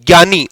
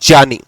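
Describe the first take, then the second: First: The opening cluster is a plain 'gy' sound. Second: The opening cluster is 'j' joined with 'ny'. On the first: The speaker calls it wrong. "जिसको आप ज्ञानी कहते हो... वो ज्ञानी नहीं होता है" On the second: The speaker calls it right. "उसका साउंड होता है आपका ज्ञानी"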